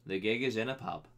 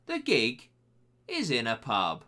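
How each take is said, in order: First: Said in the usual way. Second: "The gig", pause, "is in a pub", punched out; dramatic pauses. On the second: Shown as a demonstration. Host reading a listener's underage drinking story, dramatic pauses. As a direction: land "The gig" hard, then hold before "is in a pub". Repeats key story detail for effect.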